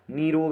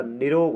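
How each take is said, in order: First: निरोग as the rejected form of the first vowel; wrong vowel length. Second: निरोग with long first "nee"; correct long vowel. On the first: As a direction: say निरोग as the mistaken take. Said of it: "निरोग नहीं होता". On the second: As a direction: lengthen the नि to नी in निरोग. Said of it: "बड़ी की मात्रा आएगी ना के ऊपर". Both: Shown as a demonstration.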